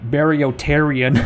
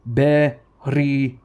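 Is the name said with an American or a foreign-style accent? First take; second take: American; foreign. First: The name is said with a flat American accent. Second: The name is said with careful foreign-style pronunciation. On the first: The speaker calls it wrong. "as an American tourist would say" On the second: The speaker calls it right. "That's how you say it"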